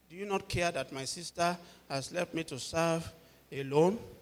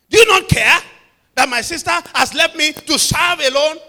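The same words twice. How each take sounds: First: It is said calmly, without annoyance. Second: It is said sharply, with clear annoyance. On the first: The speaker calls it wrong. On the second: The speaker calls it right.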